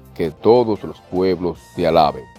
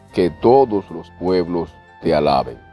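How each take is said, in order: Both takes have the same delivery.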